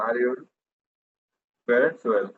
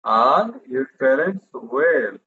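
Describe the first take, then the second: First: Said in the usual way. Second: Very slow model question. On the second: Shown as a demonstration. Teacher slowly modelling a question for the class. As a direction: stretch every word of the question slowly. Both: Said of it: "কোনটা আগে আসবে?".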